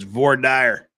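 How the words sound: It is said in a Utah pronunciation. The speaker calls it right. "my Utah pronunciation of voir dire"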